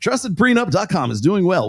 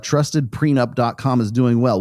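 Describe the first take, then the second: First: It is read in a put-on announcer voice. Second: It is read in his plain voice.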